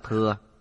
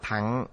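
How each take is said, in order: First: The word is said with the vowel 'ư', as thừa. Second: The word is said with the vowel 'a', as thẳng. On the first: This is the common modern reading. "chúng ta thường đọc là thừa" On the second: This is the old reading meaning vehicle. "Âm cổ đọc là thẳng"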